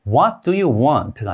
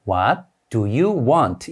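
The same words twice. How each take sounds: First: The words run together, reduced. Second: Each word is said separately and fully. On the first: "원어민은 어떻게 읽을까요?" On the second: "우리가 이 문장을 읽을 때는 ... 이렇게 읽지만"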